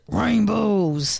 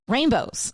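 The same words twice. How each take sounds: First: It is said in a grumpy, growly voice. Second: It is said in a normal voice.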